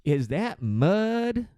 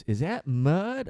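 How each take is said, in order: First: Slow, high, drawn-out clueless question; dumb passenger. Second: Slow dopey question rising at the end; dumb passenger again. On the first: A flight attendant mimics a confused passenger, slow and dopey. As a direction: stretch it out like a baffled hillbilly. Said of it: "He goes". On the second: Retelling the passenger's question a second time, slow and dopey. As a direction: drag the words out, puzzled. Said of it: "he goes". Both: Retold or imitated.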